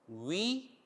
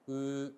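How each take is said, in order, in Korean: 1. 모음을 낼 때 입 모양이 바뀌어요. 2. 입 모양이 둥글게 그대로 있어요. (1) "위 할 때 입이 바뀌는데 맞아요" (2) "입 모양을 우로 만들어 놓고요. 이게 단모음 으가 되겠습니다"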